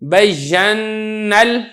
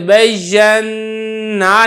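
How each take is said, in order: First: The vowel is dropped and joined straight to L. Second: The long final vowel is held, not linked onward. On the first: The speaker calls it right. "बल्कि क्या पढ़ेंगे, बय्यन्नल, इस तरीके से" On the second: The speaker calls it wrong. "नहीं पढ़ेंगे"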